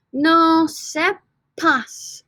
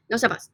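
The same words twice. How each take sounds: First: "No sepas" drawn out very slowly, high; slow model. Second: Said in the usual way. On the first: Shown as a demonstration. Teacher modelling "No sepas" very slowly. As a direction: stretch "No sepas" so the P is heard. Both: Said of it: "the B change it to a P".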